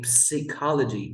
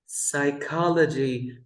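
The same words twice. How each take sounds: First: Psychology mispronounced as "psee-KOL-uh-jee"; psychology said "p-see-cology", as a mistake; wrong pronunciation. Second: PSYCHOLOGY starting on an S, "sigh-KOL-uh-jee"; teacher modelling psychology as "sigh-KOL-uh-jee"; silent P pronunciation. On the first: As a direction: sound the P at the start of psychology, then "ee". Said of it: "We never say psychology". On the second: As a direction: say psychology with no P sound. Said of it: "we have the word psychology". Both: Shown as a demonstration.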